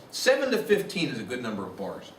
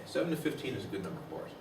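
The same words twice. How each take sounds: First: Said in the usual way. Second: Softer and fast, tossed off; quick soft repeat. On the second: Shown as a demonstration. Lecturer repeating the rule to the class, quick and soft. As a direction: rattle the rule off again under your breath.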